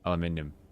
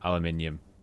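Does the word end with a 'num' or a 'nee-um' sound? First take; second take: nee-um; nee-um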